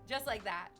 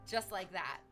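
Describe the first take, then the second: Both takes have the same delivery.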